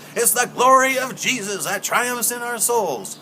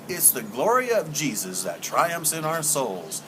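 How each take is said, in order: First: It is said in a Southern preacher's style. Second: It is said in a plain, ordinary speaking voice.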